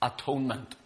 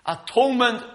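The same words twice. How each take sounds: First: Atonement said low and soft, falling away. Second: Atonement lifted high, a falling accent on the word; stress on Atonement. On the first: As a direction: let atonement drop quietly at the end. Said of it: "That's what's called". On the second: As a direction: start Atonement high as the key term. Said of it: "means to cover". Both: Shown as a demonstration.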